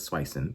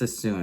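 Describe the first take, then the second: First: The name begins with a 'swi' sound. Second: The name begins with a plain 'sa' sound. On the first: The speaker calls it wrong. "I always thought it was Swisson" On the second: The speaker calls it right. "I think it's Sassoon"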